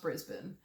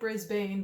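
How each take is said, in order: First: It is said differently from its spelling. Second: It is said the way it is spelled. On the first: "I think it's pronounced Brisbane" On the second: "it's spelled like Brisbane"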